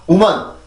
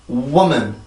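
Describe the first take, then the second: First: It starts with a flat Korean-style 'wo' syllable. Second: It starts with a rounded-lip English W, stressed. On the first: The speaker calls it wrong. "절대 woman, woman, woman, woman 이게 아니라" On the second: The speaker calls it right. "반드시 강세를 지켜주면서 입술 모양을 정확히 만들어줘야지"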